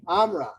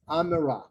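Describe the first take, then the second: First: It is said with two syllables. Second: It is said with three syllables. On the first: "Two syllables" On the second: "you would have three syllables instead of two"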